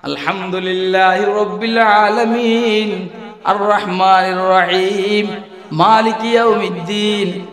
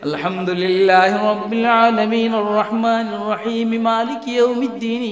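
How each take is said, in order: First: There is a pause after each verse. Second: The verses are run together quickly.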